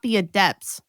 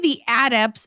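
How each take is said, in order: First: The stress is on the second syllable. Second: The stress is on the first syllable. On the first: It is said as the adjective, skilled at something. "Like if you're adept at something?" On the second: It is said as the noun. "why are they the adepts"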